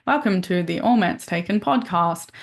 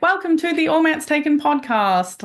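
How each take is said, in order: First: Said in the usual way. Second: Bright smiling podcast intro, higher. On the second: Shown as a demonstration. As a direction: say it with a smile. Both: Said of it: "try to smile when you speak".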